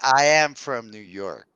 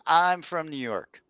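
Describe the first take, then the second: First: The verb is said in full as I am. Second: The verb is contracted to I'm. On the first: The speaker calls it wrong. "I wouldn't say" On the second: The speaker calls it right. "the most natural thing"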